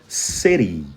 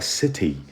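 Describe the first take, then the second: First: It has an American flapped T, like R. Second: It has a crisp British T sound.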